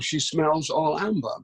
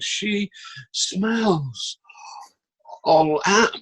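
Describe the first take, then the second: First: The line is spoken simply and plainly. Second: The line is spoken in an overworked, dramatic way. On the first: The speaker calls it right. "it was just simple" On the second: The speaker calls it wrong. "But I was going"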